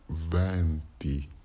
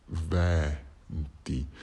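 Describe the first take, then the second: First: The first vowel is an open E. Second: The first vowel is an open E.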